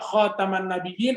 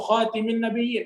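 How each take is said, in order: First: The vowel after the t is 'a'. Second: The vowel after the t is 'i'. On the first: It means the ornament of the prophets. "khotam itu dari kata cincin" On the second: It means the seal or last of the prophets. "khatim pakai kasroh taknya"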